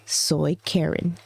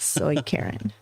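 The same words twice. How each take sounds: First: Slow deadpan. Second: "Soy Karen" breathed softly, unvoiced; softer repeat. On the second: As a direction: whisper "Soy Karen" as a quiet punchline. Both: Shown as a demonstration.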